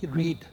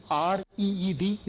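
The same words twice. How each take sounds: First: Said in the usual way. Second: R E E D spelled out letter by letter, each letter said apart. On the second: Shown as a demonstration. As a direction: spell out R E E D one letter at a time. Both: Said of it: "It's also a reed".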